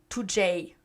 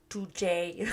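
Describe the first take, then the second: First: The final letter is said as J. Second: The same.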